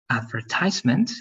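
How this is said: It is said with an American pronunciation. "in the American English is going to be advertisement"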